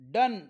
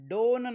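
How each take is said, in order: First: The vowel sounds like 'uh'. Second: The vowel sounds like 'oh'. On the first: The speaker calls it right. "ओचा उच्चार अ होतो" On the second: The speaker calls it wrong. "डोन नाही"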